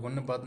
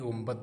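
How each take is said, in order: First: An n sound comes before the b. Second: An m sound comes before the b. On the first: The speaker calls it wrong. "मुझे गुनबद नहीं" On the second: The speaker calls it right. "गुंबद पढ़ना है"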